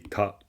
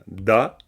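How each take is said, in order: First: The syllable starts with a T sound. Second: The syllable starts with a D sound. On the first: "ici vous la, vous la prononcez Ta" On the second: "ici vous la prononcez Do"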